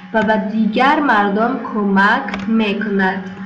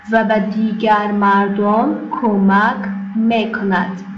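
No difference in how they are said.

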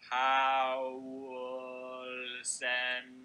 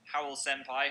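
First: It is said slowly and drawn out. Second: It is said at a normal pace.

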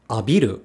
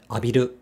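First: The pitch drops within the word. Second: The pitch stays level with no drop. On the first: The speaker calls it wrong. "It's not abiru" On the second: The speaker calls it right. "is also accentless"

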